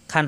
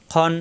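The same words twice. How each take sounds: First: "খান" with a plain open aa; light "খান" instead of rounded khawn; wrong open vowel. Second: "খন" with a dark aw vowel; throaty kh and no open a in "খন"; full-mouthed "খন"; rounded heavy kh. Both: Shown as a demonstration. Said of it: "খান হবে না".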